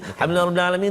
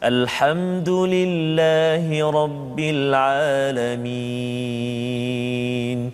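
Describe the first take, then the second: First: It is recited quickly and hurriedly. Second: It is recited calmly and slowly.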